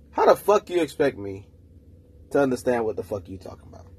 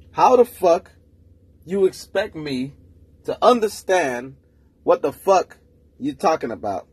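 First: Said in the usual way. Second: Louder, higher, slow and drawn out on each chunk; exasperated emphatic repeat. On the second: Real, not acted. Ranting to listeners about a girl's confusing talk, exasperated emphatic repeat. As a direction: spell it out like nobody's listening.

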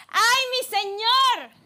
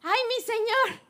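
First: High, slow cry of alarm; a frightened servant crying out to his master; panicked exclamation. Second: High cry of alarm; panicked exclamation. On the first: The servant waking to an army, crying out in panic. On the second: The servant repeating his cry to Elisha, frightened. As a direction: gasp it out in fright. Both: Acted. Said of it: "exclamó".

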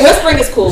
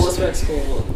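First: Said in the usual way. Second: "Whispering is cool" dropped soft and low; whispery. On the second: Shown as a demonstration. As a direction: breathe "Whispering is cool" softly. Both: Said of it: "I like whispers".

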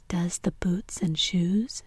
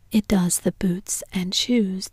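First: Slow, puzzled echo ending in a rise; drawn-out, mystified question; wondering. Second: Slow, weighty pronouncement; solemn Gryphon, measured and slow. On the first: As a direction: repeat it slowly as a wondering question. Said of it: "she repeated in a wondering tone". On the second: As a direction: state it solemnly, drawing it out. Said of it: "the Gryphon replied very solemnly". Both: A narrator's reading.

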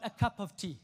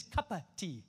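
First: "cup of tea" with each word separate; properly separated "cup of tea"; careful pronunciation. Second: "cuppa tea" with cup and of run together; slurred-together "cuppa tea"; colloquial pronunciation. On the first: Shown as a demonstration. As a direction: sound the "of" fully in "cup of tea". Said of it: "not a cup of tea". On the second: Retold or imitated. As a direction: say "cuppa" as one casual word. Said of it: "I know she says".

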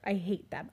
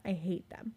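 First: Said in the usual way. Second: Whispering her hatred of cockroaches to a friend; whispered dread. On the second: Acted. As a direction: whisper it in disgust. Fear of cockroaches.

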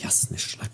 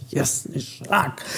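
First: Breathless whispered curse; frantic whisper. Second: Very slow, higher whispered curse; slower panicked whisper. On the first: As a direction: hiss the curse in panic in the dark. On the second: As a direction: drag it out in a terrified whisper. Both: A narrator's reading. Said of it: "bełkotał Zaraza".

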